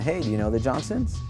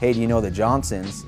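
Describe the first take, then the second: First: The voice sounds hesitant and unsure. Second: The voice sounds confident and authoritative. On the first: The speaker seems like an unwelcome stranger. The speaker calls it wrong. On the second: The speaker is a trusted local authority. The speaker calls it right.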